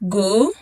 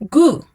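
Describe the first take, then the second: First: The pitch rises from mid to high. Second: The pitch falls sharply from high.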